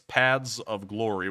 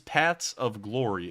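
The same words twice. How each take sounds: First: Paths ends with a 'z' sound. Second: Paths ends with a clear 'th' sound. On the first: The speaker calls it wrong. "which sounds like it ends with a Z" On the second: The speaker calls it right. "the best way I can pronounce it"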